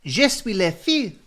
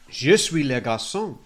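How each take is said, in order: First: Put-on high, loud little-girl voice from an old advert; child in French advert. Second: Lightly voiced little boy from an advert; child in French advert. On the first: Host quoting Muzzy advert girl, high child voice. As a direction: chirp it like a kid in a language tape. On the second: Host quoting Muzzy advert boy, light child voice. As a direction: say it like a kid in a language tape. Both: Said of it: "two kids on the advert that went".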